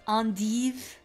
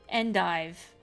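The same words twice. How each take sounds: First: It is said in a snooty French accent. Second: It is said in a plain accent.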